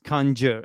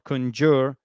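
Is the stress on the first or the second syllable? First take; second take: first; second. First: The stress falls on the first syllable. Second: The stress falls on the second syllable. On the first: The speaker calls it right. "it's conjure as well. So the stress is, Zdenek and listeners, on the first syllable" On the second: The speaker calls it wrong. "So it's not conjure"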